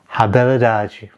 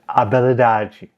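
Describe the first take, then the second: First: The word begins with an audible H sound. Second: The word begins directly with a vowel sound. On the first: The speaker calls it wrong. "I'm probably going to guess that this is pronounced" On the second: The speaker calls it right. "much closer to habilidade because this is Portuguese and generally the H is dropped"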